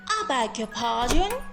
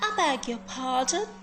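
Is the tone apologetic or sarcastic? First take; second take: sarcastic; sarcastic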